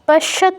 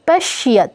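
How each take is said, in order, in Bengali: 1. শ-এর পরের 'য' ধ্বনি লোপ পায়। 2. শ-এর পরের 'য' ধ্বনি স্পষ্ট। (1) "পশ্যত নয়" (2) "ইয়টা স্পষ্ট হবে"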